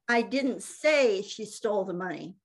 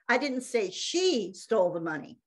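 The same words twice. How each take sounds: First: The stress is on the word say. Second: The stress is on the word she.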